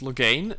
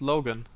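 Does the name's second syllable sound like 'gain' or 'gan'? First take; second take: gain; gan. First: The second syllable sounds like 'gain'. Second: The second syllable sounds like 'gan'. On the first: This is the English version's pronunciation. "Is he pronounced Logain in English?" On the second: This is the German version's pronunciation. "like in the German version"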